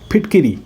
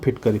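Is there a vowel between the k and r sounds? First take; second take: yes; no. First: A short i is heard between k and r. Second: No vowel is heard between k and r. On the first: The speaker calls it right. "फिटकिरी होता है" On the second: The speaker calls it wrong. "हम बोलते हैं फिटकरी, फिटकरी नहीं"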